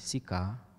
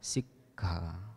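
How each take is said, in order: First: The k is single, with no hold. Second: The k is doubled with a brief hold. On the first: It means a tongue of fire. The speaker calls it wrong. "kalau kita keliru mengucapkannya menjadi sika" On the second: It means training. The speaker calls it right. "berhenti sejenak di antara double k"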